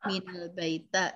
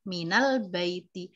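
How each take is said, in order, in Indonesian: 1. Frasanya berakhir dengan vokal a. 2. Frasanya berakhir dengan vokal i. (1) "juga salah besar" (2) "dia harus berharokat kasroh"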